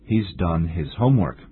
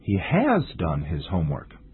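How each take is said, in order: First: The auxiliary verb is contracted and unstressed. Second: The auxiliary verb has is fully stressed.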